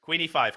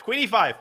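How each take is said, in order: First: Said in the usual way. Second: Called out higher and louder; excited call. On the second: Real, not acted. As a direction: call the move out in a rush. Calling it louder.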